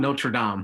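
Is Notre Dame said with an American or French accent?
French. It is said with a French accent.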